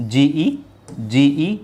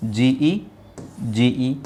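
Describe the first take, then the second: No difference in how they are said.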